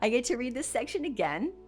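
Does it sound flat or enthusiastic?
enthusiastic. It sounds lively and enthusiastic.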